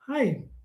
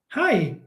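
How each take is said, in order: First: It is said flatly, with low energy. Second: It is said with lively, high energy.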